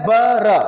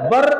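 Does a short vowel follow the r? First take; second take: Yes; No. First: A short a vowel follows the r. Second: The syllable ends on r with no vowel. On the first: This is the Arabic way of reading it. "अरबी में" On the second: This is the Urdu way of reading it. "Urdu में"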